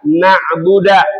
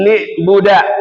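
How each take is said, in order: First: The word ends in an a vowel. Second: The word begins with an i vowel, ending a. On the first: "kita baca fathah" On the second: "dibaca kasrah ba'nya"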